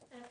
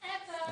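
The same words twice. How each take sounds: First: It is said flatly, without much force. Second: It is shouted with strong emphasis.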